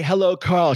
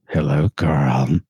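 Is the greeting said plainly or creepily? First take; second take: plainly; creepily. First: It is said in a plain, ordinary way. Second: It is said in a slow, creepy way.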